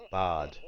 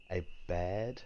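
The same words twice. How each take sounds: First: Said in the usual way. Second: Barred asked with a soft rising tune; trying out barred, unsure and quiet; questioning try. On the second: Real, not acted. Viewer unsure of the owl's name, asking barred softly.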